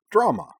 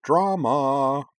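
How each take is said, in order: First: Short, high, loud "Drama" with a falling end; quick gleeful exclamation on "Drama"; cheerful declaration. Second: "Drama" sung out high and loud, drawn long; lilting, held-out "Drama"; sing-song. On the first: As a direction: pop "Drama" out cheerily, without drawing it out. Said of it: "Karana declared cheerfully". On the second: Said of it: "said in a sing-song voice". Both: A narrator's reading.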